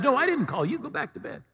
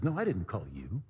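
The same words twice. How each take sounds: First: High-pitched protest from a woken priest; exasperated, high-voiced brush-off; dismissive denial. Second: Low, soft denial; quiet, puzzled priest; subdued denial. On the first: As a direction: send the boy off, voice pitched up. Woken priest sends boy back. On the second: Acted. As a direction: answer softly, pitched down. Priest denies calling a second time.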